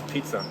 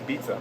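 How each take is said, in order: First: The word begins with a P sound. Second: The word begins with a B sound. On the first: This is the usual form. "instead of pizza" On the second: This is how local speakers would say it. "Very simple with B, like say pizza"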